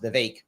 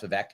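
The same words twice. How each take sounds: First: Vivek said vuh-VAKE, with a long "ay"; correct Vivek. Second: Vivek said vuh-VEH, short and clipped; old wrong Vivek. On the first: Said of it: "It's pronounced". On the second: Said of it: "I thought it was pronounced". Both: Shown as a demonstration.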